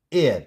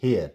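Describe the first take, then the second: First: "air" starting on the vowel; correct, silent h. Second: "hair" starting on an audible h; mispronounced heir as "hair"; wrong, h sounded. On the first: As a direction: say "air" for heir, no h. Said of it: "not hair". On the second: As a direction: say "hair" with h before the vowel. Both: Shown as a demonstration.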